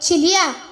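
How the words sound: The name is called hesitantly, with a shaky voice.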